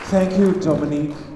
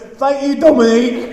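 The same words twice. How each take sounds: First: It is said in his usual accent. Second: It is said in a Sunderland accent.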